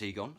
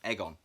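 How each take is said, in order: First: The name begins with a long 'ee' sound. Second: The name begins like the word 'egg'. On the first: The speaker calls it right. "Yes, I know it's Egon" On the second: The speaker calls it wrong. "I'm going to keep saying it wrong because I find it funny. Egon, like egg on toast"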